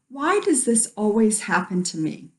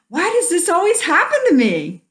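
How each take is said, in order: First: It is said in a negative, complaining tone. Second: It is said in a positive, happy tone. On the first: Something has not worked out. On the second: Something good keeps happening.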